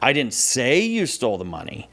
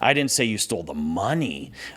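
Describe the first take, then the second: First: The stress is on "say". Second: The stress is on "money".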